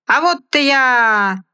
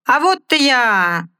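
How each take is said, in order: First: High, slow stage shout; loud cry. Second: High, slow stage shout again held; loud cry. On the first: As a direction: call it out to the crowd. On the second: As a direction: bellow it to the arena. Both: Acted. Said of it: "громко крикнул хозяин".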